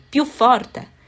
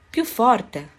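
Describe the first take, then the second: First: Higher, much louder shout of a fed-up teacher; teacher's shout. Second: Firm call for a louder answer; teacher's call. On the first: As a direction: bark it across the classroom. (l'insegnante grida più forte al nuovo alunno) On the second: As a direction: raise the voice, but hold back some. (richiamo deciso ma contenuto) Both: A narrator's reading. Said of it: "gridò l'insegnante".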